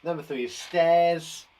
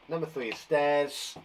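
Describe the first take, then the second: First: Slow, careful "stairs" with every sound stretched. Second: Said in the usual way. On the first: Shown as a demonstration. Teacher to pupils, stretching each sound of "stairs" slowly. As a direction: spell out "stairs" slowly for the class. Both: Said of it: "sound out every single sound".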